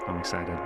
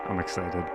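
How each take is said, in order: Both takes have the same delivery.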